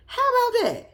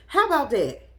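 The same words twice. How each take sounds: First: Much higher, louder mocking taunt. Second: Said in the usual way. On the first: Real, not acted. Taunting the uncle, a high mocking repeat. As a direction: sing it up high to rub it in.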